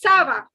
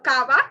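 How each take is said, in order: First: It begins with an s sound. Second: It begins with a k sound. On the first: The speaker calls it right. "but it is sava" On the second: The speaker calls it wrong. "It's not uh, kava"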